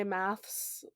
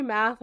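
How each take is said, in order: First: "maths" with an s after the th; the plural-sounding "maths"; British "maths". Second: "math" ending on a plain th; the singular-sounding "math"; American "math". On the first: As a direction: say "maths", ending in ths. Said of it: "they say maths". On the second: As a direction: say "math" with no final s. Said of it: "how we say math". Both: Shown as a demonstration.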